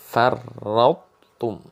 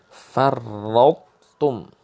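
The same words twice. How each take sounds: Both takes have the same delivery.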